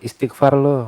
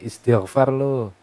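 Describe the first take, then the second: First: The middle consonant is a hard K sound. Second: The middle consonant is a throaty gh sound. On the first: The speaker calls it wrong. "kadang menggunakan kaf, menggunakan kaf lo" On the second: The speaker calls it right. "walaupun sebenarnya istighfar lo"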